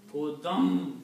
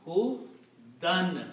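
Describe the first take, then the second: First: Hudam ending in m merged into meem; meem sound. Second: Hudan ending in a clear n; noon sound. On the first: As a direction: say hudam, n turned into m. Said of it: "not hudan anymore". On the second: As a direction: say hudan with a plain n. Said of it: "This is the sound of noon". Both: Shown as a demonstration.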